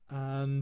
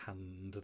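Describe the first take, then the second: First: The word starts with a gentle glottal catch. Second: The word starts with a breathy h sound. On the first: The speaker calls it right. "just a nice gentle um, uh, glottal at the very beginning" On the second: The speaker calls it wrong. "we don't really want to sing hand there"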